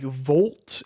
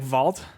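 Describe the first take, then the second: First: The word has a general, non-Midwestern vowel. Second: The word has a Midwestern vowel, like 'vault'. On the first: "how everyone I know says it" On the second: "I say like Vault"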